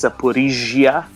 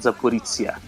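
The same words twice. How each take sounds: First: The middle consonant is a soft French-like 'zh'. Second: The middle consonant is not a soft 'zh'. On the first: The speaker calls it right. "it's Zaporizhia, ... je like uh, Jean Francois or Gigoli" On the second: The speaker calls it wrong. "not Zaporizhia"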